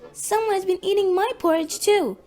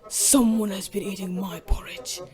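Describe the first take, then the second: First: It is said in a little voice. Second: It is said in a great big voice.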